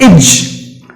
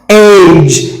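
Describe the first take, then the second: First: The vowel is short and reduced. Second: The vowel is long and full. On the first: The speaker calls it right. "you have to apply the short sound like age" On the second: The speaker calls it wrong. "not age"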